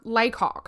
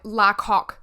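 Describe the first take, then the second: First: The first syllable sounds like 'lay'. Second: The first syllable sounds like 'la'. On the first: The speaker calls it right. "I was so wrong. It was Laycock" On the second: The speaker calls it wrong. "I was reading it as like La Coque in my head"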